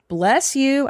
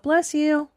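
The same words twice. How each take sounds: First: It is said noticeably louder. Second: It is said at a normal, softer volume.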